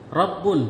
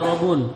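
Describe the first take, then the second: First: The b sound is held long and doubled. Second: The b sound is short and single. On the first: The speaker calls it right. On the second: The speaker calls it wrong.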